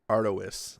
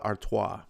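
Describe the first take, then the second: First: Artois is said just as it is spelled. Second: Artois is said the usual way.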